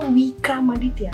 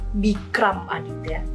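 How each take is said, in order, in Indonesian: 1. Nama depan dimulai dengan bunyi W. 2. Nama depan dimulai dengan bunyi B. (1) "atau Wikram Aditya" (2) "bisa dilafalkan Bikram Aditya"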